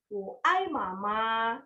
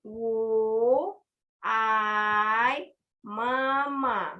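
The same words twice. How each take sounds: First: "wo ai mama" said slowly, with "ai" rising; Mandarin phrase. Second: "ai mama" drawn out very slowly and loud, "mama" falling; emphatic model. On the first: Teacher modelling a Mandarin phrase slowly for students. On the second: Teacher repeating a Mandarin phrase very slowly and loudly. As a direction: stretch and call out "ai mama". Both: Shown as a demonstration. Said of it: "di sini yaitu".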